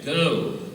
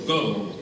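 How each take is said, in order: First: The vowel is said in a British accent. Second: The vowel is said in an American accent. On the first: "in England, you would say go" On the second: "So in America, you would say go"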